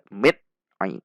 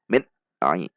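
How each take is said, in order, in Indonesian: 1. Bunyi n diputus mendadak dengan sentakan. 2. Bunyi n diputus mendadak dengan sentakan.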